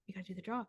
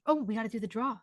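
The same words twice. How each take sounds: First: Much softer, half to herself; quiet repeat to self. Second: Said in the usual way. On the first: Real, not acted. Medium repeats the raffle reminder softly to herself. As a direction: murmur it again as a note to self.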